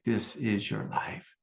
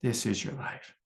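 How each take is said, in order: First: Slow, solemn voice of God. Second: A quieter, distant echo of the voice of God; softer echo of God. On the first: God speaking to the teacher on retreat, slow and solemn. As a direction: let each word land slowly like a divine pronouncement. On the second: God repeating it to him, softly, like an echo. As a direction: repeat it softly as if from far away. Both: Retold or imitated. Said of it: "God was like".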